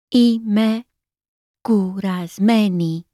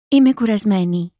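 First: It is said slowly. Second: It is said at normal speed.

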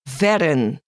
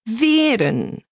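First: The first vowel is short. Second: The first vowel is long. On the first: The speaker calls it wrong. "We don't say veren, short E" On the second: The speaker calls it right. "We say veren, long E"

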